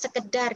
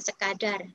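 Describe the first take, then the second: First: The middle vowel is pronounced as e. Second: The middle vowel is pronounced as a. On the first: This is the everyday spoken form. The speaker calls it wrong. "Kita cenderung menggunakan kata sekedar" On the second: This is the standard form. The speaker calls it right. "daripada sekadar"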